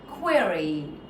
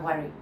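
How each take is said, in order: First: The word is said with every sound clear. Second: The word is mumbled with unclear sounds. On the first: The speaker calls it right. "At least your k is clear, your ro is clear, your e is clear" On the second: The speaker calls it wrong. "It doesn't work like that"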